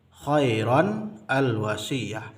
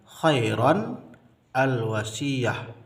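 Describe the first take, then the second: Both takes have the same delivery.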